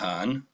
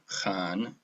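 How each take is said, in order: First: It begins with a soft, breathy H sound. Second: It begins with a harsh, throaty H sound. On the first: The speaker calls it wrong. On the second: The speaker calls it right.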